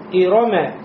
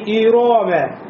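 First: All vowels are short and quick. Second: The second vowel is stretched long. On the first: The speaker calls it right. "читается быстро" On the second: The speaker calls it wrong. "как будто после ро появился алиф"

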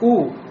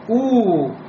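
First: The vowel is short. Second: The vowel is drawn out long. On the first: The speaker calls it right. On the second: The speaker calls it wrong.

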